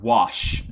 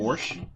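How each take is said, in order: First: The word is said without an r sound. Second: The word is said with an r sound. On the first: The speaker calls it right. "the word wash" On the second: The speaker calls it wrong. "It's a mispronunciation of the word wash"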